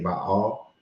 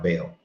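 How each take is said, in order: First: The vowels are split by a short break. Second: The vowels run together without a break. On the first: "put the comma between the A's so that they can say Baal" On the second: "some people call it Baal"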